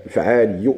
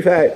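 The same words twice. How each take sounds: First: فعالي ending in a doubled y plus u; doubled final ya. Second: فاعل cut short without the doubled y; undoubled wrong form. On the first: Teacher explaining the shadda, فعالي with doubled y. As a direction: press the double y at the end of فعالي. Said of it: "اللي هي مشدودة هذه". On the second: Teacher showing what to avoid, فاعل without doubled y. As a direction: say فاعل higher, no doubled ending. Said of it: "ماشي فاعل". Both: Shown as a demonstration.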